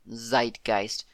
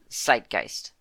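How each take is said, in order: First: The word begins with a z sound. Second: The word begins with a hard s sound. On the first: The speaker calls it wrong. "rather than a Z" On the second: The speaker calls it right. "more like an S. That's what I'm taking from this, a hard S"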